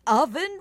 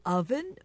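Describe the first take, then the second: First: High, incredulous question; astonished echo. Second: Puzzled echo. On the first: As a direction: repeat it in raised disbelief. King repeats more astonished. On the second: King's first puzzled echo. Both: A narrator's reading.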